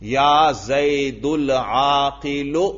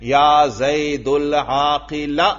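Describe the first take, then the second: First: The last word ends in a short u vowel. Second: The last word ends in a short a vowel. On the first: The adjective is in the nominative case. "دیکھو صفت پر بھی رفع پڑا" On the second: The adjective is in the accusative case. "اس پر نصب بھی پڑھ سکتا ہوں میں"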